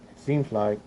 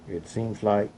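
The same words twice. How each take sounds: The two takes are said the same way.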